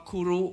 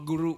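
First: "คุรุ" with aspirated kh, short vowels; Thai pronunciation. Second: "กุรุ" with voiced g, short vowels; voiced G pronunciation. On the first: Lecturer giving the Thai reading, "คุรุ" with breathy-released kh. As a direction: say "คุรุ" Thai-style, khu-ru. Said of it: "เราก็ออกว่า". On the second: Lecturer showing what Thais never say, "กุรุ" with g. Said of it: "ไม่มีใครออกว่า". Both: Shown as a demonstration.

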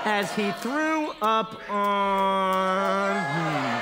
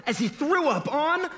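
First: Very slow, long drawn-out retching voice; throwing up. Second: Said in the usual way. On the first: A narrator's reading. Narrator acts out the operator throwing up, drawn-out heave. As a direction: stretch the last word into a mock heave.

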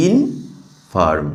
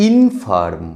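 First: ইনফার্ম drawn out slowly as ইন, long pause, ফার্ম; split in two. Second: Said in the usual way. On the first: Shown as a demonstration. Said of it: "দুটো ভাগে ভাগ করতে পারছি". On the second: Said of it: "এরপরে দেখো".

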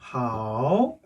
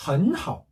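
First: 헌하오 slowly, each syllable in its own full dipping third tone; 삼성 그대로. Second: 헌하오 with 헌 rising like a second tone, 하오 dipping; 앞 삼성을 이성으로. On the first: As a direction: say 헌하오 word by word, both tones dipping low then rising. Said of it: "이걸 어떻게 읽는다 그랬죠". (헌하오를 한 음절씩 느리게, 둘 다 삼성으로) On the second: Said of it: "앞에를 이성으로 읽는다 그랬죠". (헌하오의 헌을 이성처럼 올려서) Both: Shown as a demonstration.

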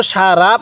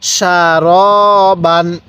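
First: সারা said "sha-ra", with an open "a" on the r; wrong open vowel. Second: সারবান said "sha-ro-ban", slow, with a long rounded "ro"; slow model recitation of সারবান, "ro" not "ra"; correct rounded "ro". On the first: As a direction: say সারা with a thin "ra" as the mistake to avoid. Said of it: "কেউ সারা পড়বেন না". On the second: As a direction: draw out a full "ro" in the middle of সারবান. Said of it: "তাহলে কিভাবে পড়ব?". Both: Shown as a demonstration.

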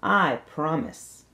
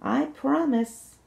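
First: Slow promise. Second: Slow promise, much higher pitch; sing-song promise, said again higher. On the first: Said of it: "The princess said". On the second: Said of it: "she said again". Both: Acted.

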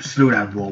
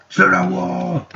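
First: Said in the usual way. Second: High, loud, held-out cry; power-move call. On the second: Pretend. Player showing off the wall power, high battle call. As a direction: call out the power on one high sustained pitch. Shouts the power after "Watch this.

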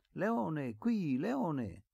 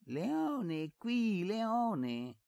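First: Put-on high-pitched child's call; calling a dog. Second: Very high, exaggerated copy of a child's call; mocking imitation. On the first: Little Efisio calling his dog back, high call. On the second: Servant boy aping Efisio's call to the dog, mocking. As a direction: parrot the boy's call in squeaky mockery. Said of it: "imitò Basilio". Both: A narrator's reading.

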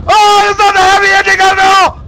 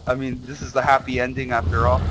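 First: Very high, loud shriek; panicked scream. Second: Said in the usual way. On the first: Real, not acted. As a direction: scream the whole line in sudden terror. Sudden scare contradicts happy ending.

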